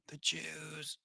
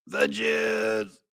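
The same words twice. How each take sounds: First: Very soft, under the breath; mock hushed insinuation. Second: High, drawn-out mocking voice; mock insinuation. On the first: Host voicing the pundit's supposed insinuation, mock hush. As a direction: drop it to a secretive near-whisper. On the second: Host repeating the pundit's supposed insinuation, mock high voice. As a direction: stretch it out up high, conspiratorially.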